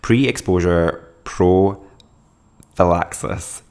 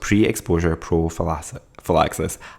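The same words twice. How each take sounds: First: The phrase is said at a slower pace. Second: The phrase is said at a faster pace.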